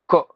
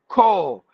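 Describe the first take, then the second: First: The vowel is short. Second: The vowel is long. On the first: This is how we say it. "with the short sound" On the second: This is how it is said in the UK. "they say colleague with the long sound"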